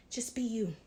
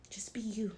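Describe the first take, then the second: First: Said in the usual way. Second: Gentle whispered reassurance; whispering. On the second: Real, not acted. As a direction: whisper it tenderly. Whispered encouragement.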